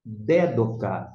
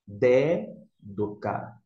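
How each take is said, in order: First: Dédoca, slow, stress on the first syllable DÉ; slow Greek word. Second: Dédoca, very slow, stress on DÉ; drawn-out Dédoca, stressed on DÉ; slow Greek word. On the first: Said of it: "a primeira palavra nós temos". (dédoca devagar, tônica no DÉ) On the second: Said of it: "você vai pronunciar dédoca". (Dédoca bem devagar, tônica no DÉ) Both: Shown as a demonstration.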